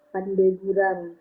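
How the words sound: A vowel is inserted and l becomes r.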